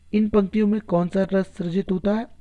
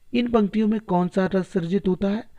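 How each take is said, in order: Both takes have the same delivery.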